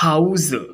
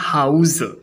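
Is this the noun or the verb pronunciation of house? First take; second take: verb; verb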